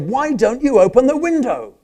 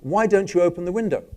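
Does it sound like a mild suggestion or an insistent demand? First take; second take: insistent demand; mild suggestion. First: It is said insistently, as a pushy demand. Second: It is said lightly, as a mild suggestion. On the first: The speaker is pushing beyond a suggestion. "if I say it in a different way, ... We might have gone beyond suggestion" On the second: The speaker is suggesting an idea. "the function of why don't you open the window is a suggestion"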